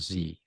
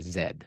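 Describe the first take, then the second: First: The letter is said as 'zee', American style. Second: The letter is said as 'zed', Canadian style.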